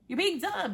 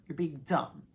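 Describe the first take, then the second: First: High-pitched, exasperated telling-off; exasperated scolding. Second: Low, matter-of-fact telling-off; low scolding. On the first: Telling a contestant off, high exasperated scolding. Scolding her, escalated repeat. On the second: Telling a contestant off, low scolding. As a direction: say it low, as a verdict. Scolding her, first take. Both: Real, not acted.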